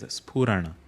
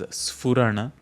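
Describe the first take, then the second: First: The first consonant is an aspirated p. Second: The first consonant is an f sound. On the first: The speaker calls it right. "It is Spurana" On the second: The speaker calls it wrong. "Make sure that you are not pronouncing it as Sphurana. There is no fa as an individual letter"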